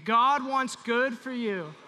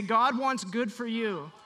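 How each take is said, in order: First: Louder, very slow, emphatic blessing; said again louder. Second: Said in the usual way. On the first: Shown as a demonstration. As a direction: proclaim it to your neighbor slowly. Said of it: "Say it again". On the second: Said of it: "Put your hand on your neighbor and say".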